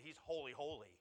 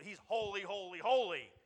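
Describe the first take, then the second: First: Said in the usual way. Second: Each "holy" higher and louder, hammered; building emphasis. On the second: Shown as a demonstration. Pastor stressing God's holiness to the congregation, loud emphasis. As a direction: ring out "holy, holy, holy" with rising force.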